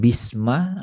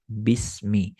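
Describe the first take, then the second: First: The word ends with the vowel a. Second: The word ends with the vowel i. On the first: The speaker calls it wrong. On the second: The speaker calls it right. "Sama kayak kita baca bismillah"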